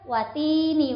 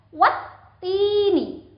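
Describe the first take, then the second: First: The t sound is short and single. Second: The t sound is doubled and pressed. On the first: The speaker calls it wrong. "bukan watini wazaitun, itu salah" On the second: The speaker calls it right. "harus ditekan"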